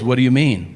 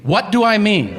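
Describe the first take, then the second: First: Said in the usual way. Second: High, exasperated repeat of the question; incredulous echo. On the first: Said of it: "And he goes". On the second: Retold or imitated. Diner to oblivious waiter, incredulous high echo. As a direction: throw the question back, pitched up.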